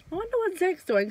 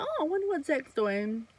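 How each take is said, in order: First: Wistful musing. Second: Wistful wondering. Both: Retold or imitated.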